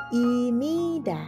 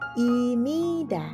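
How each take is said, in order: First: An m sound comes before nida. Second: The same.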